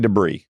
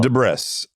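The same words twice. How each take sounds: First: The word is pronounced the standard way. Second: The word is pronounced the way it is spelled. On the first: "I never say debris" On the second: "it's spelled debris and it sounds funnier"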